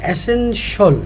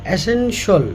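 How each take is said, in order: Both takes have the same delivery.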